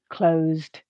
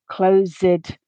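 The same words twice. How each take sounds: First: The word has one syllable, ending in a d sound. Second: The word has two syllables, with an added ed syllable. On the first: The speaker calls it right. "the base form has the same number of syllables as the past tense ed form" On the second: The speaker calls it wrong. "pronounce that letter E and create an additional syllable"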